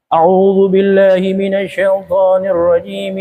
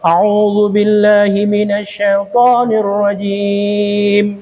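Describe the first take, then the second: First: It runs straight into the next phrase. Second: A pause follows before the next phrase. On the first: All three parts are recited joined together. "semuanya bersambung tiga-tiga" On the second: The opening formula is recited on its own. "ta'awuznya baca sendiri ... Berhenti"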